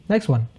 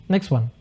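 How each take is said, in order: Both takes have the same delivery.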